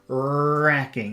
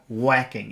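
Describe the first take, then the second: First: The first sound is an R from the mouth top. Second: The first sound is a rounded W-like sound. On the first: The speaker calls it right. "redirect the focus to the top of your mouth" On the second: The speaker calls it wrong. "you can feel the focus is here if you say whacking"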